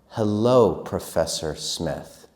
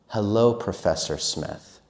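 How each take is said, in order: First: It is said a bit faster. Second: It is said faster again.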